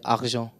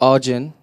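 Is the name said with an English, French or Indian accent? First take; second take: French; English. First: The name is said in a French accent. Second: The name is said in an English accent.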